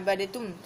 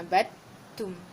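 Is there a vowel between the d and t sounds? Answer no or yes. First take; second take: yes; no. First: An extra vowel separates the d and t. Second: The d runs straight into the t. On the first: The speaker calls it wrong. "Bukan abadatum. Salah" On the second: The speaker calls it right. "terus huruf ta, masuk kat huruf ta"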